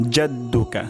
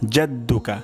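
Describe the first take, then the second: First: The word begins with a J sound. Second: The same.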